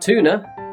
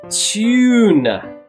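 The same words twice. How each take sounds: First: The first vowel sounds like oo. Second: The first vowel sounds like yoo. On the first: The speaker calls it wrong. "so not tuna" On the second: The speaker calls it right. "It needs to be a long vowel U sound"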